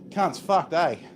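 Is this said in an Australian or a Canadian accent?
Australian. It is said in a plain Australian accent. "my standard speech"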